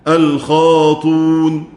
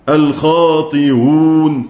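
First: The hamza is dropped entirely. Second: The hamza is softened between hamza and vowel. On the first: "على الرسم الحذف الخاطون" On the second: "على القياس الخاطيون تسهيل"

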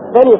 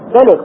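First: The word ends in a long 'a' vowel. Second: The word ends on a bare consonant. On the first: This is the regular pausal form. The speaker calls it right. "فالأولى أن يقول ماذا؟" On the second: This is the usage of one tribe's dialect. The speaker calls it wrong. "الشاهد ايش؟"

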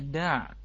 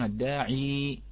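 First: The word ends without a final long vowel. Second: The word ends with a long 'ee' vowel. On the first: This is the pause form in the Hafs reading. "نحن في حفص نقف عليها الداع" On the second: This is the pause form in the Warsh reading. "عند ورش أو عند البعض نعم يقفون الداعي"

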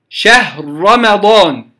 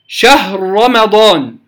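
The two takes are said the same way.

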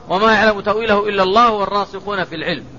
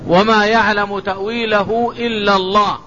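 First: It runs on past Allah without stopping. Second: It stops right after Allah. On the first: Scholars also know its interpretation within limits. "قراءة الوصل" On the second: Only God knows its true interpretation. "ثم يقف ويقول"

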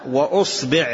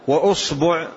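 First: The b is followed by an i vowel. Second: The b is followed by a u vowel. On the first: "بكسر الباء" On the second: "بضم الباء"

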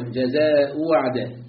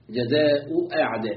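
First: The second hamza is replaced by a w. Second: The second hamza is a full glottal stop. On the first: "وإبدالها واوا" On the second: "بتحقيق الهمزة الثانية"

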